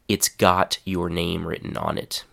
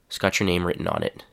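First: Each of the first words is said clearly. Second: The first words blur together into one short chunk.

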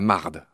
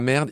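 First: The vowel sounds like an 'a'. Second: The vowel sounds like an open 'e'. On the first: This is how Quebecers say it. "C'est comme si c'était un A" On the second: This is the standard French form. "ils disent pas merde"

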